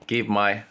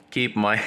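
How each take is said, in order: Both takes have the same delivery.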